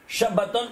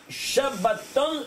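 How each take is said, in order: First: Said in the usual way. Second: Shabbaton drawn out slowly, each syllable held; slow teaching word. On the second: Shown as a demonstration. Teacher drawing out Shabbaton for the student, slowly. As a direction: say Shabbaton slowly, spelling it out by ear. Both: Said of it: "Comme ça, ça s'appelle".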